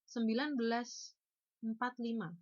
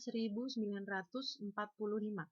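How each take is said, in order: First: The number is pronounced in an informal way. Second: The number is pronounced in a formal way. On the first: The speaker calls it wrong. "Itu tidak formal ya" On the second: The speaker calls it right. "yang benar adalah"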